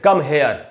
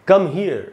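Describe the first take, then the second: First: The vowel in 'here' sounds like 'air'. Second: The vowel in 'here' sounds like 'ear'. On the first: The speaker calls it wrong. "कुछ लोग इसको हेयर भी बोलते हैं, वो गलत है" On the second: The speaker calls it right. "ऐसे बोलना चाहिए"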